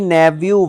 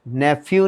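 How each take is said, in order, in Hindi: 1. बीच का व्यंजन v ध्वनि है। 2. बीच का व्यंजन f ध्वनि है। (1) "नैव्यू वावे नाल है" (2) "नैफ्यू नहीं"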